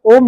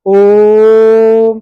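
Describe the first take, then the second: First: Said in the usual way. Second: ओम held very long and loud, like a chant; ओम, खींचकर लंबा जाप की तरह; long drawn-out Om. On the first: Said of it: "ओम नहीं बोलते हैं". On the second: Shown as a demonstration. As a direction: stretch ओम out as in japa. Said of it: "तो लंबा खींचते हैं".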